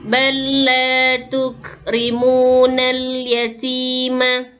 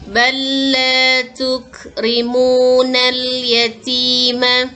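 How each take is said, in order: The two takes are said the same way.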